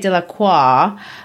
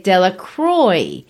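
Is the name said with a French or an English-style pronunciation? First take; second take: French; English-style. First: The name is pronounced the French way. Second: The name is pronounced in an English-style way. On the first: This is the original form of the name. "like the French might, or, that's my version of how the French might say it" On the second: This is a changed form of the original name. "They say Delacroix. Now, that's a corruption of the original"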